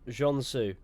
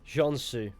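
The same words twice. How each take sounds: No difference in how they are said.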